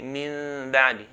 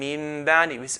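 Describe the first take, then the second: First: The lips stay apart on the m sound. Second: The lips close fully on the m sound. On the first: "we should not close the two lips" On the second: "instead of saying"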